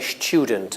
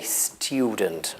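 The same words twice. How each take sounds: First: It begins with a 'sh' sound. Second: It begins with a plain 's' sound. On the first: This is the newer, younger form. "some people use ch after the s ... I'm young and I say student" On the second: This is the traditional form. "I don't say student"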